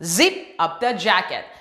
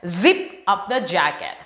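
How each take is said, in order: Both takes have the same delivery.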